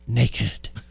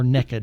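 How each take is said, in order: First: It is said with a standard pronunciation. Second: It is said like 'nekkid' in an Oklahoma accent.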